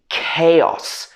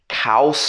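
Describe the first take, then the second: First: The word begins with a k sound. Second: The word does not begin with a k sound. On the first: The speaker calls it right. "it should be chaos. K-A-O-S" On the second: The speaker calls it wrong. "A lot of people will pronounce this as chaos"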